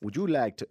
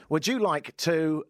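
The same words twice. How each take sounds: First: Put-on brief, half-hearted stab at a Jamaican accent; attempted Jamaican accent. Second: Said in the usual way. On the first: Host starting an advert on request, shaky attempt at Jamaican accent. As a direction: try Jamaican, unconvinced. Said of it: "no, let's stick to my accent". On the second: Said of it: "let's stick to my accent".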